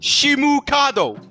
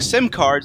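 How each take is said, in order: First: It is said in a Japanese accent. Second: It is said in a plain English accent.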